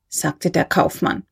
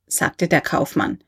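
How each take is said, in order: Both takes have the same delivery.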